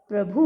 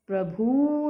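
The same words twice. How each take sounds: First: प्रभु with a short final u, "pra-bhu"; correct प्रभु. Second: प्रभु with a long drawn-out oo, "pra-bhoo"; mispronounced प्रभु. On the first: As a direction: end प्रभु briefly. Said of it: "होता है". (प्रभु में छोटा उ) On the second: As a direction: stretch the end of प्रभु. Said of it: "नहीं होता". (प्रभु में लंबा ऊ, "प्रभू") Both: Shown as a demonstration.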